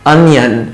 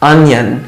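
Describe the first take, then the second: No difference in how they are said.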